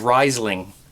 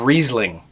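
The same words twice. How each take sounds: First: It is pronounced the way it is spelled. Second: It is pronounced differently from its spelling. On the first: The speaker calls it wrong. "I said Riesling because that's what it's spelt like" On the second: The speaker calls it right. "instead of"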